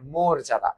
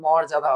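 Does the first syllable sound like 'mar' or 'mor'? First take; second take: mor; mar. First: The first syllable has a rounded 'o' vowel. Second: The first syllable has an open 'a' vowel. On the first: The speaker calls it right. "মোর যা দা" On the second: The speaker calls it wrong. "আসলে এটার উচ্চারণ মর্যাদা হবে না"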